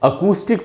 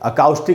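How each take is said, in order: First: The second vowel is a long 'oo'. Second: The second vowel sounds like 'ow'. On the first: The speaker calls it right. "अकूस्टिक पढ़ेंगे" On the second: The speaker calls it wrong. "अकाउस्टिक नहीं पढ़ेंगे"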